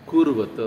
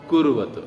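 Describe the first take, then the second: The two takes are said the same way.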